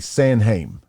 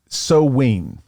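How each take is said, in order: First: It is said with n and h sounds, rhyming with time. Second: It is said with a w sound, no n-h. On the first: This is how the spelling suggests it is read today. The speaker calls it wrong. "we would say Sanheim, but that's not how they pronounced it" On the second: This is how the ancient Celts said it. The speaker calls it right. "they called it Soween"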